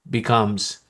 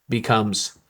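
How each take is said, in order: The two takes are said the same way.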